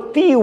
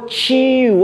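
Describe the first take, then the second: First: The t is a plain, crisp stop sound. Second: The t is dragged into a ch-like sound. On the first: The speaker calls it right. "Tem que ser que nem português de Portugal" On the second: The speaker calls it wrong. "Santista e carioca tem mania de arrastar o T de tatu e o D"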